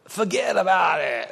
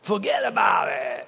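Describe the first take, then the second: First: Lightly Brooklyn "Forget about it"; a hint of Brooklyn, shrugging it off. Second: Brooklyn. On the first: Pastor brushing off an offense, light Brooklyn accent. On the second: Retold or imitated. Pastor brushing off an offense in full Brooklyn shout. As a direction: bellow "Forget about it" like a Brooklyn guy. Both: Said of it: "It's a Brooklyn version".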